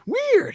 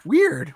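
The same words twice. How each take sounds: First: "Weird." squeaked much higher; a high, squeaky weird; high squeaky repeat. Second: Said in the usual way. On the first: Real, not acted. Repeats the word twice.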